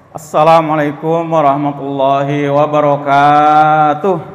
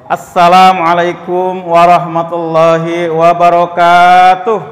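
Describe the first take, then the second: First: It is said quietly, with little energy. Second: It is said loudly, with more energy.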